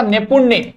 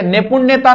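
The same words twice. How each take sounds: First: नैपुण्य said cleanly with a falling close; correct form नैपुण्य. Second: नैपुण्यता raised as the form to reject; wrong form नैपुण्यता. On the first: Teacher corrects class, modelling नैपुण्य. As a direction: give the right form नैपुण्य. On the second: Teacher warns class against नैपुण्यता. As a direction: hold up नैपुण्यता as the mistake. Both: Shown as a demonstration. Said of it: "नैपुण्यता नहीं होता".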